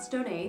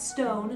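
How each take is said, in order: First: The name ends with an extra syllable. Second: The name is said as one syllable. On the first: The speaker calls it wrong. "not Stone-A. The accento is silent" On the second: The speaker calls it right. "That's Stone"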